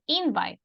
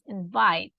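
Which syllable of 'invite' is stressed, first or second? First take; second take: first; second. First: The stress is on the first syllable. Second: The stress is on the second syllable. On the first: The speaker calls it wrong. "it's not invite" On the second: The speaker calls it right. "So the stress is on the second syllable"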